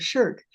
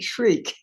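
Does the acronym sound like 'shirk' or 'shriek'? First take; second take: shirk; shriek. First: It is said like the word 'shirk'. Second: It is said like the word 'shriek'. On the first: This is how literary scholars say it. "Literary scholars, including Carol Shields, pronounce that acronym SHIRK" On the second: This is how theology scholars say it. "theology scholars pronounce it SHRIEK"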